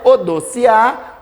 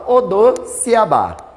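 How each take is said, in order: First: The word ends without the final syllable bá. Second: The word ends with the extra syllable bá. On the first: "Tem gente que fala Odociá" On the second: "outros falam Odociabá"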